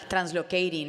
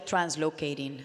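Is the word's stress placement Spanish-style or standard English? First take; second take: Spanish-style; standard English. First: The stress falls on a Spanish-style syllable. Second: The stress falls on the standard English syllable. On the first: The speaker calls it wrong. "Hispanics put the wrong emphasis on the wrong syllable, and so I, I did that" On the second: The speaker calls it right. "no, let's do translocating"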